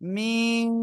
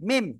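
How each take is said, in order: First: The vowel is stretched out for a long time. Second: The vowel is said short, without stretching. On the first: The speaker calls it right. "চার লিফ টান" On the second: The speaker calls it wrong. "যদি কেউ বলে মিম মিম মিম, তার হবে না"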